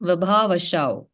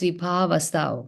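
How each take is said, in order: First: The last syllable starts with an sh sound. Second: The last syllable starts with an s sound. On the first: The speaker calls it wrong. "You're saying Vibhavashau" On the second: The speaker calls it right. "It's Vibhavasau"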